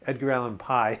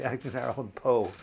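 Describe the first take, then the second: First: "Poe" said as "pie", rhyming with "eye"; mispronounced surname. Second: "Poe" with a long O, rhyming with "go"; corrected surname. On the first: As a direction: say "Poe" wrongly, with an "eye" vowel. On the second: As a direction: say "Poe" properly, like "go" with a P. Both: Shown as a demonstration. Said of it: "It's actually Edgar Allan Poe".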